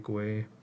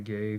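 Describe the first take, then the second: First: The name sounds like the end of Uruguay. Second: The name sounds like the word gay. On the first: "I pronounce it Guay, I don't know why. ... Uruguay"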